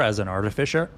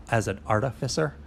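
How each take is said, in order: First: "artificer" said with a "sh" sound, ar-ti-fi-sher. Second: "artificer" said with an "s" sound, ar-ti-fi-ser. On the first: Game master tells the player what they know, "artificer" as ar-ti-fi-sher. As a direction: say "artificer" ending in "-fisher". Says the word two ways. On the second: Game master corrects the word for the player, "artificer" as ar-ti-fi-ser. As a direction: say "artificer" ending in "-fisser". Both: Shown as a demonstration.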